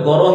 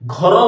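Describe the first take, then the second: First: The first consonant is plain and unaspirated. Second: The first consonant is breathy and aspirated. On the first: "ଗର ହିଁ ବୋଲି କହିବେ" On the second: "ଘ ବୋଲି ଉଚ୍ଚାରଣ କରିପାରିବେ ନାହିଁ"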